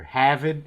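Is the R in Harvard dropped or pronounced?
dropped. The R sounds are dropped, Boston style.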